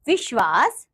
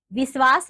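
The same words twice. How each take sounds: First: Said in the usual way. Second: "विश्वास" with s for sh, "visvaas"; wrong pronunciation. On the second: Shown as a demonstration. Teacher showing pupils the error, "विश्वास" mispronounced as "visvaas". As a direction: make the sh of "विश्वास" a plain s. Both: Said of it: "नहीं".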